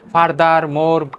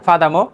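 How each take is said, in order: First: The r sounds are clearly pronounced. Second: The r sounds are dropped. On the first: The speaker calls it wrong. "ফাদার মোর কষ্ট হচ্ছে" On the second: The speaker calls it right. "মোর না, ফাদামো"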